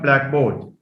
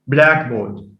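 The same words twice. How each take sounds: First: The stress is on the second part. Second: The stress is on the first part. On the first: The speaker calls it wrong. "So it's not blackboard" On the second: The speaker calls it right. "It receives stress on the first element"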